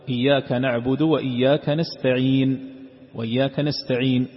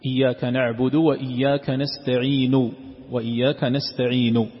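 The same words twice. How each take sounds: First: نستعين cut off on a bare نون; pause with sukun. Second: Slow recitation, نستعين ending in a clear u; full final vowel. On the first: Teacher showing the silent stop on the verse's last word. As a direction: drop the final u of نستعين completely. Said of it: "أن تقف عليها ساكنة". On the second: Teacher reciting the verse with its final vowel intact. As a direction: give نستعين its full damma at the end. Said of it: "كقوله سبحانه وتعالى". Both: Shown as a demonstration.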